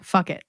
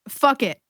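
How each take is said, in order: First: It is said very quietly. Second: It is said at normal loudness.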